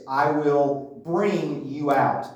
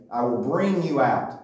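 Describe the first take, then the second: First: Slow, every word weighed, BRING leaning hardest; stress on bring. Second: "bring" lifted above the other words; stress on bring. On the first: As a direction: draw out "I will bring you out" with weight on bring. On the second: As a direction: lean into bring. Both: Shown as a demonstration. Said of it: "The emphasis on the word bring".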